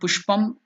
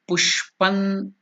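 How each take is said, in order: First: The word ends with an m sound. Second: The word ends with an n sound. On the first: The speaker calls it wrong. "It is not" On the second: The speaker calls it right. "it is Pushpan. ... So na is to be stressed"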